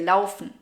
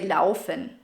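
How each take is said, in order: First: The ending -en is swallowed and barely heard. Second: The ending -en is pronounced fully and clearly. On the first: The speaker calls it right. "most people will just say laufen" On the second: The speaker calls it wrong. "you don't really say laufen"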